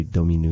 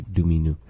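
First: Domino said "doh-mee-noo"; first pronunciation variant. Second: Domino said "doo-mee-noo"; second pronunciation variant. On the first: Teacher showing one of two ways, Domino as "doh-mee-noo". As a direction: open Domino with a rounded "doh". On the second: Teacher showing the other of two ways, Domino as "doo-mee-noo". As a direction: open Domino with "doo" in place of "doh". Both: Shown as a demonstration. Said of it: "There's two different ways".

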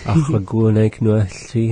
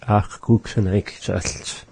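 First: Said in the usual way. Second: Slowly spelled out statement; slow careful statement. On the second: Shown as a demonstration. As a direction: say it slow and deliberate. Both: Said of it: "I don't want it".

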